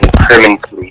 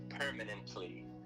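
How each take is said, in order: First: The word is slurred, not every syllable is clear. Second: The word is carefully enunciated, every syllable clear. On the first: The speaker calls it wrong. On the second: The speaker calls it right.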